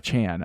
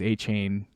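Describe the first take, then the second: First: The last syllable sounds like chan. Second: The last syllable rhymes with train. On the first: "but now it's Chan" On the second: "it rhymed with train"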